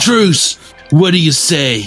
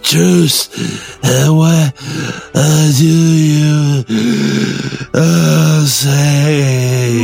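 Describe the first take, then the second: First: It is said in a less breathy voice. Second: It is said breathily, gasping between words.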